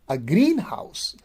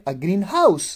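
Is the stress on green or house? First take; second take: green; house. First: The stress is on green. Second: The stress is on house. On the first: It is a building for growing plants. "which is the place where plants are grown" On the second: It is a house painted green. "then it is not a compound"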